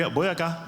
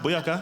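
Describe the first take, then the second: First: High, excited Jamaican patois shout; Jamaican exclamation. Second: High Jamaican patois echo; Jamaican exclamation. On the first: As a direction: cheer it out in Jamaican style. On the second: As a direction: repeat the Jamaican cheer. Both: Pretend. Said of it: "being of Jamaican heritage".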